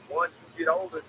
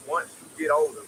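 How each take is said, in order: Both takes have the same delivery.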